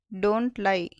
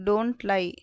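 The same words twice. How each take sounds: The two takes are said the same way.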